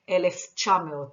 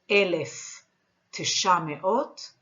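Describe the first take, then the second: First: The word for nine blends into a quick cha. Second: The word for nine is said in full.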